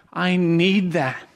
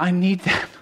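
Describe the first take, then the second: First: "I need that" said slowly, each word weighed; slow emphatic repeat. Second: Said in the usual way. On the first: Shown as a demonstration. Preacher repeats to the church that he needs correction, slowly. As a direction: let it sink in, slow and deliberate.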